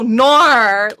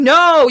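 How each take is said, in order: First: The word ends with an added r sound. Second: The word ends in a plain vowel sound. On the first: "you go nor" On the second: "instead of saying no"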